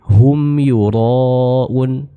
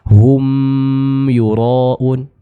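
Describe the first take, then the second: First: The m is short, neither held nor bounced. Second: The m sound is held longer. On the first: The speaker calls it right. "mim yang sukunnya saja tanpa adanya penahanan atau pemantulan suara" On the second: The speaker calls it wrong. "bukan hum yuraun. Ini kurang tepat"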